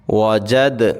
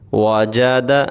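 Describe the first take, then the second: First: The word stops on the final consonant. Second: The word is read in full with a final vowel. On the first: "अब हम इस पे रुकेंगे" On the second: "मुकम्मल पढ़ेंगे"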